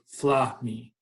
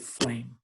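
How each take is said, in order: First: The word is split into two syllables. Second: The word is said as one syllable. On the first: The speaker calls it wrong. "That would be two syllables" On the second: The speaker calls it right. "we just say flame. This is one sound"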